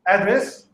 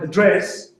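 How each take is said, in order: First: The stress is on the first syllable. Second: The stress is on the second syllable. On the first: It is a noun, a place where someone lives. "if the stress is on the first syllable" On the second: It is a verb, to speak to someone. "if the emphasis is on the second syllable"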